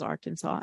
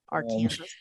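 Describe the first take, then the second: First: The ending sounds like 'saw', unlike Kansas. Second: The ending sounds like the end of Kansas. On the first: The speaker calls it right. "Kansas is Kansas but Arkansas is Arkansas" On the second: The speaker calls it wrong. "and not Arkansas"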